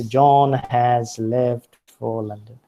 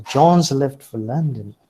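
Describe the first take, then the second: First: Slow, every word separate, "has" and "for" said in full; laboured, word-by-word "John has left"; unreduced strong forms. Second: "John's" in one beat with a final z, "for" reduced; connected speech, has cut down to z in "John's"; contracted weak form. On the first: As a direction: spell out "has" as a full stressed word, slowly. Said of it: "They do not say". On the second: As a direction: link "John's left for" smoothly, louder on the name. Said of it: "They pronounce it as". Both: Shown as a demonstration.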